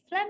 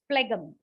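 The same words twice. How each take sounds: First: The g sound is left out. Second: The g sound is pronounced. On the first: The speaker calls it right. "is much better. So I leave out the G there" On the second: The speaker calls it wrong. "it is difficult for me to have an intruder sound j, g there"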